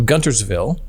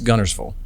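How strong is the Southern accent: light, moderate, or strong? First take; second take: light; strong. First: A light Southern accent with the T clearly sounded. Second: A strong Southern accent with the T dropped. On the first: This is how it is said while traveling the country. "I kind of talk like this... it's not as pronounced" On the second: This is how it is said after a long time at home. "really at home for a long time... So it's G U N N E R S"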